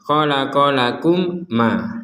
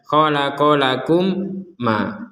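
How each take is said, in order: No difference in how they are said.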